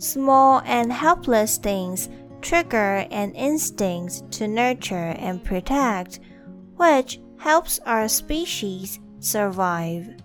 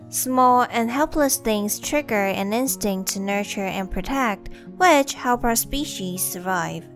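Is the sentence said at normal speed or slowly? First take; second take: slowly; normal speed. First: It is said slowly. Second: It is said at normal speed.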